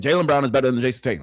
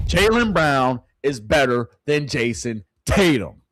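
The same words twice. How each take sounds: First: Rattled off fast and loud; fast repeat. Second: Slow and loud, each word weighed, "Jaylen" hit hardest; slow emphatic repeat. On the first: Streamer to chat, fast emphatic repeat. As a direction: fire it off quickly. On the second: Streamer to chat, slow emphatic declaration. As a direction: lay every word down deliberately. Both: Real, not acted. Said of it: "Let me say it again".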